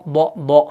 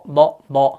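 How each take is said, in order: Both takes have the same delivery.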